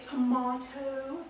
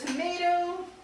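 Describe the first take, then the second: First: It is said in a British accent. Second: It is said in an American accent.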